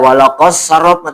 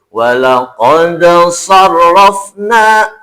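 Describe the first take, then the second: First: The d merges into the following s sound. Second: The d is released clearly with a bounce. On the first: The speaker calls it wrong. "tidak walaqas sarrafna tidak" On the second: The speaker calls it right. "tapi walaqad sarrafna"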